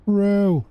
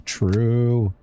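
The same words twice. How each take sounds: First: A high mock echo of True; squeaky high true. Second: Said in the usual way. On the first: Shown as a demonstration.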